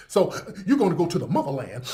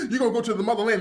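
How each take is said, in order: First: Said in the usual way. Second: Hammed-up tearful shout of the promise; fake-sob the motherland pitch; mock crying preacher. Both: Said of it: "He sells the motherland as".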